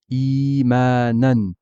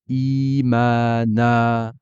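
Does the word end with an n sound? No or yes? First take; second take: yes; no. First: The word ends with a final n sound. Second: The word ends on a long vowel, no n. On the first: The recitation continues past this word. "On dira imanan" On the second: The recitation stops on this word. "je ne prononcerai pas le tanwin"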